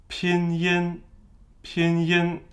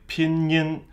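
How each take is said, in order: First: "Pinyin" high and level, pin then yin; no liaison. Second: "Pinyin" with n stuck on, pin-nyin; wrongly linked. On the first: Teacher showing learners the Chinese way, no liaison. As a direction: keep the y of "Pinyin" free of the n. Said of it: "if you attach the N before the Y". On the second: Teacher showing how the mistake would sound, wrongly linked. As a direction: attach an n before the y in "Pinyin". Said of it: "attach the N before the Y". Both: Shown as a demonstration.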